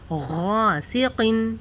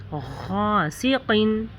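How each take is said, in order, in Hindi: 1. पहला व्यंजन भारी, गोल और गले से निकला हुआ है। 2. पहला व्यंजन भारी, गोल और गले से निकला हुआ है।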